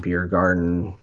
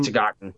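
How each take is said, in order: First: It is said with an English accent. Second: It is said with a German accent.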